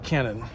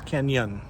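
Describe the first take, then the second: First: It is said with a plain n sound. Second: It is said with an ny sound. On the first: The speaker calls it wrong. "not Cannon" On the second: The speaker calls it right. "Canyon City is how you say it"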